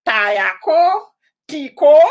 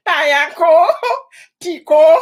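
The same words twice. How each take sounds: First: Tayako and Tiko said higher and louder, mocking the way Americans say it; American mispronunciation. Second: Tayako, Tiko said higher and louder, mocking the wrong version; American mispronunciation. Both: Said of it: "Some of people say Tayako".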